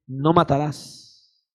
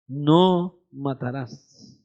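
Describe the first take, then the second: First: "No matarás" very slow, lower, each word weighed; solemn commandment. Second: "No matarás" even slower and softer, almost breathed; hushed solemn echo. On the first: Preacher quoting scripture to the church, slow and grave. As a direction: intone "No matarás" slowly and gravely. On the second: Preacher echoing the commandment to the church, slow and hushed. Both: Shown as a demonstration.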